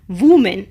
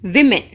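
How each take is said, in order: First: The first syllable sounds like 'wo' in 'wood'. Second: The first syllable sounds like 'wi' in 'win'. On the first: The speaker calls it wrong. "W O M E N is not pronounced as woman" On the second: The speaker calls it right. "it is pronounced as women"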